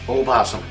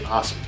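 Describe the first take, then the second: First: The word starts with an extra oh vowel. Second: The word starts directly with the p sound. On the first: The speaker calls it wrong. "You don't say oh possum" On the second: The speaker calls it right. "you don't say the O, you say possum"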